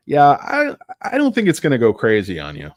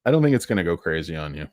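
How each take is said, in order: First: Louder and higher, insisting; emphatic loud take; louder reassurance. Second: Said in the usual way. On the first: Real, not acted. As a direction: push it out like a promise.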